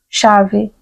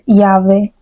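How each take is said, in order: First: The first consonant is a 'sh' sound. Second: The first consonant is not a 'sh' sound. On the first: This is the speaker's local regional pronunciation. "eu pronuncio chave como se fosse uma C, né? C-H" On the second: This is another regional pronunciation. "que poderia ser llave"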